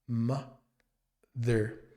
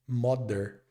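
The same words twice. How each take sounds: First: The first vowel sounds like 'a', with 'th'. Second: The first vowel sounds like 'o', with a 'd'. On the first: The speaker calls it right. "ma, com som mais de a, mother, com o som do th" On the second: The speaker calls it wrong. "a gente pensa que essa palavra tem um som de mo"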